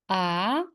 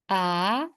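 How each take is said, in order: The two takes are said the same way.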